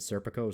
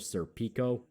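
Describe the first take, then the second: First: The name is said in a plain English way. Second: The name is said in an elaborate European way. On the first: The speaker calls it right. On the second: The speaker calls it wrong.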